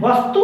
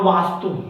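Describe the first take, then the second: First: वस्तु with a short a after व; वस्तु, short open व; short first vowel. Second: वास्तु with a long aa after व; वास्तु, long first vowel. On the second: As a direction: draw out the वा in वास्तु. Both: Shown as a demonstration. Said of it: "आकार लगा वो में आकार".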